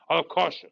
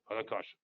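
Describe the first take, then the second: First: Said in the usual way. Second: Soft repeat to himself; murmured afterthought; quiet echo. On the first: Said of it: "repeated quieter". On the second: Real, not acted. Muttering to himself over the chart, quiet echo. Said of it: "repeated louder first".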